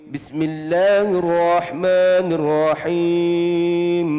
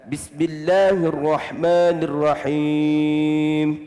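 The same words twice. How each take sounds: The two takes are said the same way.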